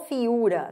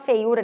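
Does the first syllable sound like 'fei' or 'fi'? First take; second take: fi; fei. First: The first syllable is reduced to a plain 'fi'. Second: The first syllable keeps the full 'fei' diphthong. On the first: "O povo falava assim" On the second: "O povo ainda nem falava feiura"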